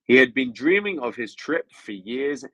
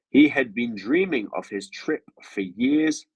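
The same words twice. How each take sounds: First: It is read at a faster pace. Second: It is read at a slower pace.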